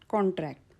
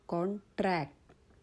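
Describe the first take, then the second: First: The stress is on the first syllable. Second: The stress is on the second syllable. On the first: It names a legal agreement. "first syllable is stressed" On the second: It means to catch or acquire something. "आता माझा उच्चाराचा आघात आला ट्रॅक्टवर"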